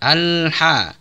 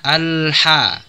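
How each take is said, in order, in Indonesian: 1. h itu bunyi tenggorokan yang dalam dan serak. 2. h itu bunyi tenggorokan yang dalam dan serak.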